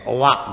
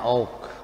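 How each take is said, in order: First: The vowel is split into two syllables. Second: The vowel is said as one syllable. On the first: The speaker calls it wrong. "Seperti owak" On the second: The speaker calls it right. "bacanya oak"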